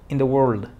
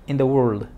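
No difference in how they are said.

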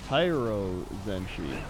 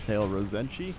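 First: The name begins with the sound 'high'. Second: The name begins with the sound 'hail'. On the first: The speaker calls it right. "No, it's Hyro Zenshi. It's not Hail" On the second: The speaker calls it wrong. "I said it wrong"

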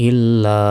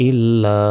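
Both takes have the same delivery.

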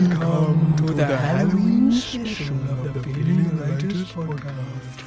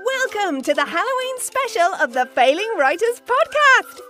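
First: It is said in a spooky, eerie way. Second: It is said in a bright, sparky way.

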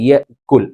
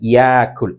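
First: A glottal catch follows the short first vowel. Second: The first vowel is drawn out long instead. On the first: This is the formal standard form. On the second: This is the everyday spoken form.

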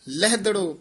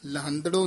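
First: The first syllable has no nasal sound. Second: The first syllable ends in a nasal sound. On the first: The speaker calls it right. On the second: The speaker calls it wrong.

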